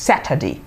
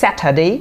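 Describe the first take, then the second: First: Saturday as "SAT-ə-dee", falling; "dee" ending. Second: Saturday as "SAT-ə-day", last vowel full and lifted; "day" ending. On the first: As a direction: end Saturday on a short "di". (শেষে "ডি" উচ্চারণে) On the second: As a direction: end Saturday on a clear "day". (শেষে "ডে" উচ্চারণে) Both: Shown as a demonstration. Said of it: "Saturday or Saturday".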